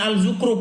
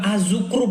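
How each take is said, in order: First: The article keeps a clear l sound. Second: The article blends into a z sound. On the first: The speaker calls it wrong. "Gak ada Al-Zukhruf bang" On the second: The speaker calls it right. "Az-Zukhruf bukan Al-Zukhruf"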